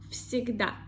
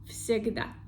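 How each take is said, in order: No difference in how they are said.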